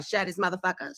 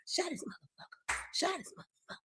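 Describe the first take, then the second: First: Said in the usual way. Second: Hushed, fully whispered request; barely audible whisper, repeated insistently; whispered plea. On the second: Real, not acted. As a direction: whisper it like a secret instruction.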